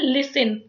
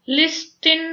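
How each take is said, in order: First: No 't' sound is pronounced in the middle. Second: A 't' sound is pronounced in the middle. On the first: The speaker calls it right. "इसको बोलते हैं लिसन" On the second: The speaker calls it wrong. "लिस्टिन नहीं बोला जाता"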